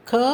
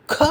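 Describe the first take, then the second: First: Plain ka with little air on க; க without a puff; unaspirated க. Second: Breathy kha with a strong puff on க; க as a heavily aspirated "kha". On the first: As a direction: say க as an easy "ka". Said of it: "இந்த கா வரிசையின்". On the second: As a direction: push extra air out on க. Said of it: "அதிக அளவு காற்றை பயன்படுத்தி". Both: Shown as a demonstration.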